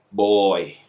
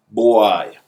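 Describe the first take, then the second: First: Put-on "boy" said the standard English way; English pronunciation. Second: Put-on "boy" said louder, Jamaican patois way; patois pronunciation. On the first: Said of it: "The correct way to say it in English is". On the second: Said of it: "The correct way to say it in English". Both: Shown as a demonstration.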